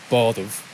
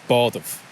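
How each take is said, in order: Both takes have the same delivery.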